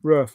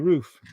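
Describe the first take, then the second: First: The vowel is short, like a dog's bark. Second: The vowel is long and drawn out. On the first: This is how northern United States speakers say it. "Northern people say rough, rough, like a dog" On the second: This is how southern United States speakers say it. "People in the South say roof"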